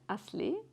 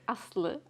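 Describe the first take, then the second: First: The name is said with English sounds. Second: The name is said with Turkish sounds. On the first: It is said so that listeners can understand it. "I say it in, in, in English or to people to understand" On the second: This is how the name normally sounds. "normally it's Aslı"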